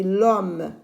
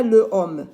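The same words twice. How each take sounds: First: "l'homme" as one slow syllable, no schwa after the l; elided l'homme. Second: "le homme" as two separate words, "le" stressed and louder; unelided le homme. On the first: Teacher giving pupils the correct form, slow joined "l'homme". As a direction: glide l directly into the vowel of "l'homme". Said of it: "je dis l'homme". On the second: Teacher showing pupils the wrong form, separated "le homme". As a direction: keep the vowel of "le" before "homme". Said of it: "Et je dis pas le homme". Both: Shown as a demonstration.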